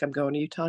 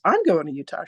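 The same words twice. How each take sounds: First: Said in the usual way. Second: Lightly voiced excited friend, livelier. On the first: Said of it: "And I'm like". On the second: Best girlfriend learns they share a Utah trip, mildly excited. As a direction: echo it back with a touch of excitement. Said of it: "And she goes".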